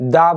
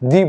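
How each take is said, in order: First: The vowel is a short 'uh' sound. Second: The vowel is a long 'ee' sound. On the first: The next word begins with a consonant sound. "Consonant প্রোনাউন্সিয়েশনের আগে আমরা দা বলি" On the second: The next word begins with a vowel sound. "Vowel প্রোনাউন্সিয়েশনের আগে আমরা দি ব্যবহার করি"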